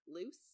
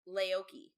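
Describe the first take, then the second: First: The name ends with an 's' sound. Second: The name ends with a 'kee' sound. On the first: The speaker calls it wrong. "that is not how you pronounce her name" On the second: The speaker calls it right. "it's uh, Laoki"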